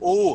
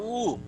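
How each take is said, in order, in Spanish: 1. La vocal se dice con la boca muy abierta. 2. La vocal se dice con la boca cerrada. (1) "no decimos U. O sea, no abrimos la boca para decir U" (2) "decimos U"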